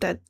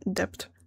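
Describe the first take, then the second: First: The b sound is silent in the word. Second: The b sound is pronounced in the word. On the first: The speaker calls it right. "I didn't know that the B was silent" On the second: The speaker calls it wrong. "I would say debt"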